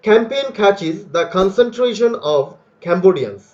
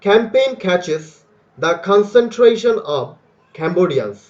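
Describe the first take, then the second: First: The words are read at a moderate speed. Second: Each word is read slowly and separately. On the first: "এটা medium লেভেলে আমরা এটাকে পড়ব" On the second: "প্রথমবার তো ছিল ভ্যারি স্লো"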